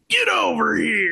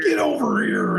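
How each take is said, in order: First: Shouted growly ninja battle cry; Scorpion voice. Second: High shouted battle cry; Scorpion voice. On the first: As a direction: bellow it like a fighting game ninja. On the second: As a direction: yell it like the game character. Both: Retold or imitated. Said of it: "Scorpion would be like".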